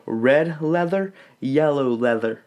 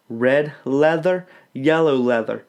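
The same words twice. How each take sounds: First: Said in the usual way. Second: "Red leather, yellow leather" said slowly, each word separate; don't rush it, land every consonant; deliberate diction drill pace. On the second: Shown as a demonstration. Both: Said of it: "Don't try to say it fast".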